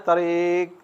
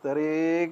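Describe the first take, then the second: First: It is said softly and gently. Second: The same.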